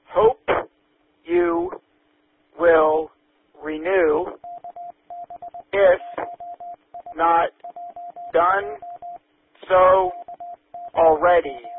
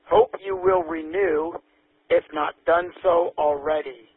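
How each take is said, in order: First: It is read at a slower pace. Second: It is read at a quicker pace.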